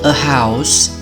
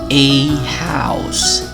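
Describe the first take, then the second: First: The word 'a' is reduced to a schwa. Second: The word 'a' has its full strong vowel. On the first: "Jadinya seperti" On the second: "Bentuk kuatnya adalah"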